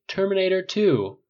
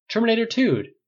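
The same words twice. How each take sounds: First: Terminator two dragged out slower, leaning on "two"; insist, stretching "two". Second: High, loud shout of Terminator two; shouted pick. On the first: A friend repeating the pick more insistently, slower with stress. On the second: A friend shouting his movie pick, high and loud. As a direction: yell the title. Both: A narrator's reading.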